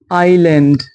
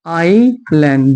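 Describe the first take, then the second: First: Said in the usual way. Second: आइलैंड said very slowly, first vowel आइ stretched; slow, careful आइलैंड. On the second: Shown as a demonstration. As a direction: draw out आइलैंड syllable by syllable with a silent s. (आइलैंड को बहुत धीरे, खींचकर बोलें) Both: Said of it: "एस silent है".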